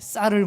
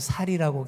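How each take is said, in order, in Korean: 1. 첫소리 자음은 경음 'ss' 소리예요. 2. 첫소리 자음은 평음 's' 소리예요. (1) "쌀을 못하고" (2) "쌍시옷 발음이 안 돼서"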